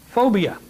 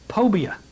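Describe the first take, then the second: First: The word begins with an f sound. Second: The word begins with a p sound.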